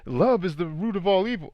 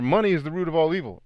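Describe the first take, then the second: First: Higher, mocking misquote voice. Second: Quick, lightly mocking recital; mock quote. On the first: Mocking people who misquote scripture, higher and sneering. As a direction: parrot the wrong version mockingly. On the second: Mocking a common misquoted saying, quick and light. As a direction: rattle off the cliché dismissively. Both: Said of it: "bastardized versions of scripture".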